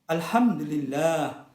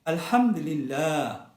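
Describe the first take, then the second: Both takes have the same delivery.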